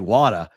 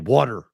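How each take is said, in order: First: It is said in a Boston accent, without R. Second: It is said in a Philly accent, with R.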